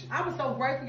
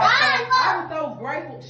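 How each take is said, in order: First: Hushed. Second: Said in the usual way. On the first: Real, not acted. Hushing down in the elevator.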